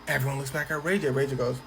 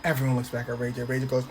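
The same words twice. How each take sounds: The two takes are said the same way.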